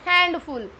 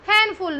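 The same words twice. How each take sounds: First: The D sound is clearly pronounced. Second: The D sound is left silent. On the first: The speaker calls it wrong. "नोट हैंडफुल" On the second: The speaker calls it right. "हैंडफुल note हैंडफुल"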